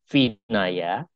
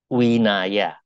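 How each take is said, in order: First: The word begins with a V sound. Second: The word begins with a W sound. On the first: "tulisannya Vinaya" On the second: "bacanya Winaya"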